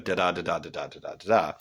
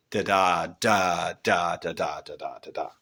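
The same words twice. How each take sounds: First: "da da da da da da da da da" in even alternating weak-STRONG beats; iambic rhythm. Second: "da da da da da da da da da" slowed, with heavy separate DAs after the first; spondee stressed beats. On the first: Teacher sounds out the expected meter, "da da da da da da da da da" in regular da-DA beats. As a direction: chant "da da da da da da da da da" as da-DA pairs. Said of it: "which would be a unstressed, stressed".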